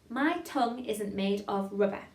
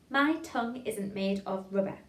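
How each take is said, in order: Both takes have the same delivery.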